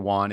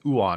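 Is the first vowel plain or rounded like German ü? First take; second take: plain; rounded. First: The first vowel is plain, without lip rounding. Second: The first vowel is rounded like German ü. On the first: The speaker calls it wrong. "A lot of people mispronounce that" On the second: The speaker calls it right. "with your forward lip forward, like pronouncing the German U with an umlaut"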